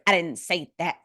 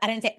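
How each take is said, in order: First: Each word is spoken with exaggerated, careful enunciation. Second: It is said casually, without careful enunciation.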